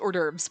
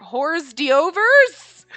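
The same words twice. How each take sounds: First: It is said with its usual pronunciation. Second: It is said letter by letter as spelled. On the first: The speaker calls it right. "I know it's hors d'oeuvres" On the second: The speaker calls it wrong. "you see it written out and you're like"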